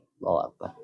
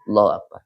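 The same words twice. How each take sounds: First: The phrase is said almost without audible voice. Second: The phrase is said in a normal audible voice. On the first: "ojo ngene" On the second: "Kalau suara nih biasa"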